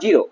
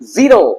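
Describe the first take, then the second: First: The word starts with a j sound. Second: The word starts with a buzzing z sound. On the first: The speaker calls it wrong. "Not জিরো" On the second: The speaker calls it right. "জেড এ জ হচ্ছে জ, যেমন জু"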